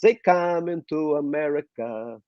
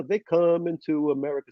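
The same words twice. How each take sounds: First: Put-on slow singing in a thick Russian accent; drawn-out Russian-accented song line. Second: Put-on sung line in an American accent; practiced American-accented song line; accent lost, American. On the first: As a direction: sing it like a new Russian immigrant. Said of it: "the Russians have a very thick accent". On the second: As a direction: sing it with the Russian accent gone. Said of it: "Slowly, I, I lost the accent".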